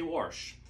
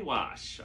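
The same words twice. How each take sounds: First: It is said with an r sound, like warsh. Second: It is said without an r sound. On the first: This is how people from the speaker's home region say it. "I say wash; I'm from Maryland" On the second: This is how people elsewhere say it. "I don't say wash"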